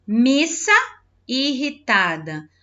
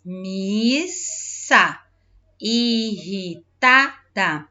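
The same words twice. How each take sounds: First: Said in the usual way. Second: "Missa irritada" very slowly, split into syllables; "Missa irritada" drawn out, a pause between syllables. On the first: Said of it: "Leia as palavras dos quadros". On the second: Shown as a demonstration. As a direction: stretch and separate each syllable of "Missa irritada". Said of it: "separando a sílaba".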